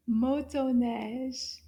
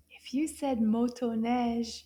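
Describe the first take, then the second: First: Motoneige drawn out slowly, syllable by syllable; teacher modelling motoneige slowly; slow model word. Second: Said in the usual way. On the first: Shown as a demonstration. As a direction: say motoneige slowly for the kids to copy.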